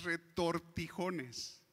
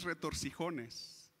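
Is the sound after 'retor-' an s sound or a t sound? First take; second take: t sound; s sound. First: The sound after 'retor' is a t. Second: The sound after 'retor' is an s. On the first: The speaker calls it right. "es retortijones. Así es, esa es la palabra" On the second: The speaker calls it wrong. "no es retorcijones"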